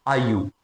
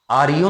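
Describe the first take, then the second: First: आईयू said as one glided syllable, aa-yu; soft, quick आईयू without the R; pronunciation demo. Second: आर यू with a full separate R, aar-yu; wrong pronunciation demo. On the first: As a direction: run आईयू together, no r sound. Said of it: "आप pronunciation ऐसे करेंगे कि". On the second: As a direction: say आर यू as two words, R sounded. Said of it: "आर यू नहीं". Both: Shown as a demonstration.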